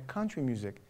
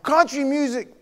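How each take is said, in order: First: Said in the usual way. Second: High, loud incredulous cry; hammed-up horrified outburst; mock outrage. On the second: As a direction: exclaim it as if appalled. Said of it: "I was like".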